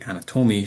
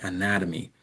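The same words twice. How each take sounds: First: The stress falls on an unexpected syllable. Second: The stress falls on the usual syllable. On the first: The speaker calls it wrong. "she wasn't trying to say anatomy" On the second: The speaker calls it right. "She was trying to say anatomy"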